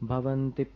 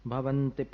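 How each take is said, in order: The two takes are said the same way.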